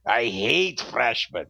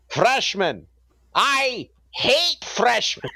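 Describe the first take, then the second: First: Put-on a slow, lower German accent, lightly done; a slow, lower mock German sneer at the freshmen. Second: Slow, high German accent, hammed up. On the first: The professor repeats his greeting in a lightly done German accent. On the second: A German professor greets freshmen in a hammed-up German accent. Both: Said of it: "in his strong German accent".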